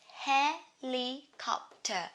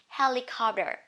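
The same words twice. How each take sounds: First: The T is pronounced fully and clearly. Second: The T is softened and not stressed.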